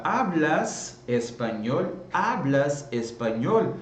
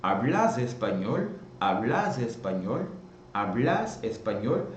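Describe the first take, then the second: First: Hablas slowly, stress on first syllable; slow demo of Hablas espanhol; tú form. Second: Hablas with stress on final A; hablás. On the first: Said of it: "ao invés de eu perguntar". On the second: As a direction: voseo Hablas, stress moved to the end. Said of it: "E vai ficar assim". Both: Shown as a demonstration.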